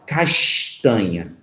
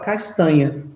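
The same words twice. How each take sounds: First: It is said in a Carioca accent. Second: It is said in a Paulista accent.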